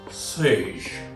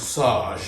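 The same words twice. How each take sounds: First: It is said in the usual everyday pronunciation. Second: It is said in a different regional pronunciation.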